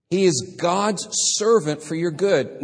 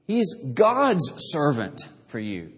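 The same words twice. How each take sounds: First: Said in the usual way. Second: Slow, leaning hard on "God's"; stress on GOD'S. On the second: Shown as a demonstration. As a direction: press "God's" and let the rest fall away. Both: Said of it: "God is emphasized".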